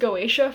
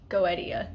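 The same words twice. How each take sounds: First: The vowels run together into fewer syllables. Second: Each vowel is said as its own syllable. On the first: The speaker calls it wrong. "I was pronouncing this as Goetia" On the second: The speaker calls it right. "You pronounce like each syllable, each vowel individually"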